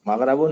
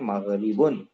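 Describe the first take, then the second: First: The vowel after the 'r' is 'a'. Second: The vowel after the 'r' is 'i'. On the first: This is the form the grammar rule predicts. "Grammar के एतबार से मगरबुन होना चाहिए" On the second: This is the form Arabs actually use. "इसलिए मगरिबुन ही सही है"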